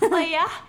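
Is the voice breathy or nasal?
breathy. It is said breathy and open.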